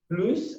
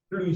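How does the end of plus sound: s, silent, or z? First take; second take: s; silent. First: The word ends with an audible s sound. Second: The word ends with no final consonant sound. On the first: "avec S" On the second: "sans S"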